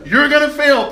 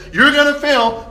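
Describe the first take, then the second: First: High, loud punch on gonna fail; "You're gonna fail" hit hard and high; emphatic warning. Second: High, loud stress on "You're" and fail; "You're gonna fail" thrown out loud and high; emphatic warning. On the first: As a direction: drive the warning home. Lord's warning to Peter. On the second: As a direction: press the warning again. Repeated warning to Peter. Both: Acted.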